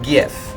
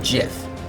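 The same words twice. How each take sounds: First: The word begins with a hard G sound. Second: The word begins with a soft J sound. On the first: The speaker calls it wrong. "not GIF" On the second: The speaker calls it right. "I pronounce it GIF, It's like Jif peanut butter"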